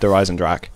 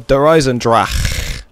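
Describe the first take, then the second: First: It is said plainly with an English accent. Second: It is said with a harsh, throaty German accent. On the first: "I'm not saying it like that anymore" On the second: "Oh god, that hurts my throat"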